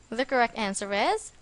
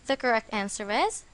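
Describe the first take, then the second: The two takes are said the same way.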